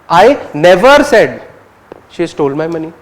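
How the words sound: The word "never" carries the main stress. "you're focusing on never"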